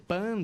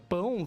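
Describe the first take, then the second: First: It ends in a plain 'an' sound. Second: It ends in the nasal diphthong 'ão'.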